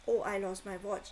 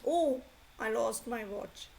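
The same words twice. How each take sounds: First: It is said in a flat, plain tone. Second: It is said with strong, emotional stress. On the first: The feeling stays hidden. The speaker calls it wrong. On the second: The feeling comes through. The speaker calls it right.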